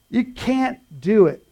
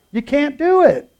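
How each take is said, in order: First: Slow, weighted second take; slow repeat. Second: Higher, louder punch; emphatic repeat. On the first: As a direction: lean on YOU slowly. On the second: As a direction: hammer it home loud. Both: Shown as a demonstration.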